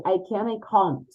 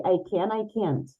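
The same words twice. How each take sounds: First: British accent, "can't" with a long open ah; British accent, "I can't" said as "I cahn't". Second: American accent, "can't" with a flat a like "can"; American accent, "I can, I can't" almost the same. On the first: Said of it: "British would say". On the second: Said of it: "But Americans would say". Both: Shown as a demonstration.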